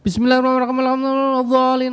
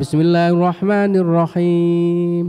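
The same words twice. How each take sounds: First: It is recited very fast and hurried. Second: It is recited very slowly and drawn out. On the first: The recitation is rushed and cannot be followed. "anak sing cepet sampai gak kena dirungokno" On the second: The recitation drags on and tires the congregation. "maca Fatihah alon-alon"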